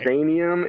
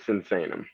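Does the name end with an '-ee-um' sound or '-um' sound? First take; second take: ee-um; um. First: The name ends with an extra 'ee-um' sound. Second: The name ends with a plain 'um' sound. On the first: The speaker calls it wrong. "It's not" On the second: The speaker calls it right. "It's Sinsanum"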